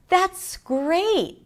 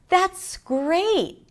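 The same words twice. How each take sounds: First: The voice is high with a wide pitch range. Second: The voice is high with a wide pitch range.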